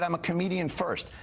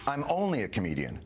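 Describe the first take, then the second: First: "first" stressed in place of "only"; quoting himself exactly, "first" weighted. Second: "only" leaned on to mock the claim; "only" stressed, the word he never said. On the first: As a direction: land on "first" to correct him. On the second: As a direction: hit "only" hard, as the quote he rejects. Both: Shown as a demonstration. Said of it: "That's not only".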